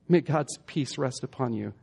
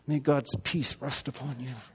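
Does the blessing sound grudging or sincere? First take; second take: sincere; grudging. First: It is said in a warm, sincere tone. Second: It is said in a grudging, insincere tone. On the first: The blessing is meant from the heart. The speaker calls it right. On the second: The blessing is not really meant. The speaker calls it wrong.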